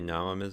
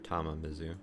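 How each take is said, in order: First: The name begins with an N sound. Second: The name begins with a T sound. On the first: The speaker calls it wrong. "I don't know why I pronounced it with the N" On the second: The speaker calls it right. "probably it was a T"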